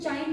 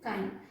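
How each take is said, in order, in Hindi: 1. यह शब्द 'ch' ध्वनि से शुरू होता है। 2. यह शब्द 'k' ध्वनि से शुरू होता है। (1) "इसको कुछ लोग चाइन भी पढ़ते हैं" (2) "बट हम लोग इसका प्रोनाउंसिएशन क्या करते हैं"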